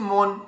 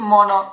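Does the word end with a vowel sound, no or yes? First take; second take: no; yes. First: The word ends on a consonant. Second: The word ends with a pronounced vowel. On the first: This is the everyday Bengali pronunciation. "কিন্তু আমরা বলছি মন" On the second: This is the Sanskrit pronunciation, as written. "উচ্চারণ হবে কি মন"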